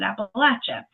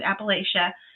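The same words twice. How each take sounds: First: The word has the southern regional pronunciation. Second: The word has the northern regional pronunciation. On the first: "the people who are in the southern part pronounce it" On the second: "people usually who are in the uh, northern part of those mount, that mountain range pronounce it"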